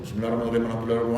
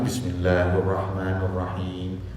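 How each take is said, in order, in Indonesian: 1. Dibaca sangat cepat, banyak bunyi yang hilang. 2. Dibaca pelan, setiap bunyi terdengar jelas. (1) "yang sholat cepat itu" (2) "kayak gitu"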